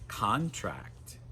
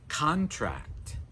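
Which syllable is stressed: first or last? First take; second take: first; first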